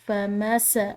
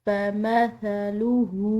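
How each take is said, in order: First: The f sound carries a whistling hiss. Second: The f sound is soft without any hiss. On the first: The speaker calls it wrong. "सीटी की आवाज़ हो तो ये गलत होगा" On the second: The speaker calls it right. "इसको हमने पढ़ना है नरमी से"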